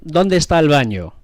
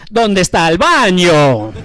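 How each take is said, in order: First: Said in the usual way. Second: Thick cartoon Italian accent, slow and a bit louder on "¿Dónde está el baño?"; slow, hammed-up Italian accent, laughing through it; Super Mario Italian accent. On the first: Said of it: "I tried to teach him". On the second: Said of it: "It's a Super Mario Brothers accent".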